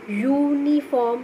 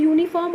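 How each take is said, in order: First: Uniform very slow, with a long opening "yoo"; drawn-out pronunciation. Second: Said in the usual way. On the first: Shown as a demonstration. Teacher shows pupils the Y sound, uniform slowly drawn out. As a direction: stretch the first sound of uniform into "yooo-niform". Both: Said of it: "when you pronounce this word".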